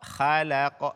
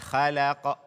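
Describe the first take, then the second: First: The kh sound is light and thin. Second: The kh sound is light and thin.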